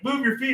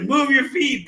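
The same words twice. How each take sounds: First: Put-on higher-pitched urging of a drunk friend; imitated urging. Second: High, raised urging; imitated exasperated order. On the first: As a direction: mimic a friend giving an order, pitched up. Dragging drunk friend, first order. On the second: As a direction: mimic a friend ordering harder, pitched well up. Dragging drunk friend, order escalates.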